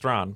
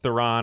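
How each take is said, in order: First: The name is said like a single-beat 'Thrawn'. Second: The name is said like the familiar 'Theron'. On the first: The speaker calls it right. "correct pronunciation is Thrawn" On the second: The speaker calls it wrong. "how we say it here, what probably incorrectly"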